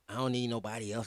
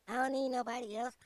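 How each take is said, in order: First: It is said in his normal voice. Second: It is said in a put-on voice.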